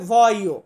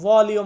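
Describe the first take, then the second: First: No L sound is heard in the middle. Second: A clear L sound is heard in the middle. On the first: The speaker calls it right. "এটাকে আমি উচ্চারণ শেখাই ভয়ও, ওইখানে এল এর উচ্চারণটা আসবে না" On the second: The speaker calls it wrong. "যেমন ভলিও"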